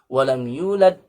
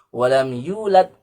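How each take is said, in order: Both takes have the same delivery.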